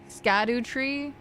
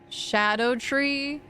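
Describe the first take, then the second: First: The word begins with an 'sk' sound. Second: The word begins with an 'sh' sound. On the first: "I like saying scadu though" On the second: "Scadu tree is pronounced like shadow tree"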